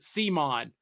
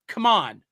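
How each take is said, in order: First: The name begins with an S sound. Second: The name begins with a K sound. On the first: The speaker calls it wrong. "They pronounce it Simon" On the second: The speaker calls it right. "that's come on"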